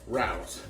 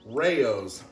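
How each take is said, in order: First: The name is said as one syllable, like 'rouse'. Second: The name is said as two syllables, 'ray-ohs'. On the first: The speaker calls it wrong. "I pronounced this Rouse" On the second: The speaker calls it right. "this is how you actually pronounce it"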